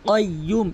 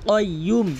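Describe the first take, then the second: The two takes are said the same way.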